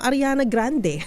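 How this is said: The name is said in a Filipino accent. "Pero Pilipino"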